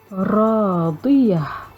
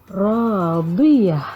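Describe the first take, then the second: First: The word ends on a soft h-sound. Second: The same.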